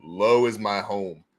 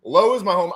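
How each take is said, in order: First: Low voice. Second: Higher voice. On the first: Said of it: "I like to be low". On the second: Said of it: "I can sort of ish sing high". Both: Shown as a demonstration.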